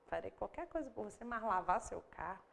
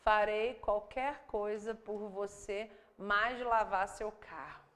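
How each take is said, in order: First: Said in the usual way. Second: Slow, deliberate word-by-word literal translation; awkward literal reading. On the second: Shown as a demonstration. Teacher reading a clumsy literal translation slowly. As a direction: read it out stiffly, word by word. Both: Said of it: "ela fica tão esquisita".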